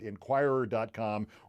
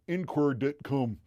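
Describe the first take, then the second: First: It is said in a standard American accent. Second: It is said in a Philadelphia accent.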